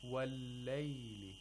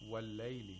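First: The l sound is held a little longer. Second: The l sound is passed over quickly. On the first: The speaker calls it right. "You should hold the lam a little bit" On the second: The speaker calls it wrong. "You should not quickly pass. If you say وَاللَّيْلِ, وَاللَّيْلِ, that's incorrect"

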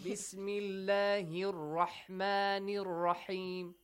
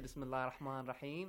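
First: The words run together with linking vowel endings. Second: The words are said separately, like everyday speech. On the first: It is proper Quranic recitation. The speaker calls it right. "this is the recitation of the Quran" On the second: It is ordinary conversational speech. The speaker calls it wrong. "do not say Bismillah ar-Rahman ar-Rahim"

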